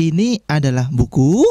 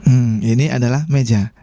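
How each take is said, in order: First: "Ini adalah buku" ending on a questioning rise; statement wrongly sung up at the end; rising statement. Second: "ini adalah meja" settling down on "meja"; plain statement tune, falling at the end. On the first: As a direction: let "buku" lift up as if asking. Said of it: "Pernyataan kok naik nadanya". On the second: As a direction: let the statement fall and close on "meja". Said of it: "Intonasi pun diperlukan ya". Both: Shown as a demonstration.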